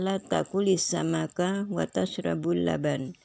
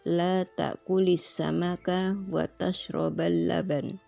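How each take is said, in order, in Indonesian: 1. Kata kerja sebelum laban berakhir dengan vokal u. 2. Kata kerja sebelum laban berakhir dengan vokal a.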